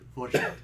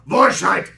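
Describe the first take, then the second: First: It is said in a soft, gentle voice. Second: It is said in a harsh, forceful voice. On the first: "It's like the most gentle German" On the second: "instead of"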